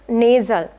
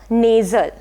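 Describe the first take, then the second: The two takes are said the same way.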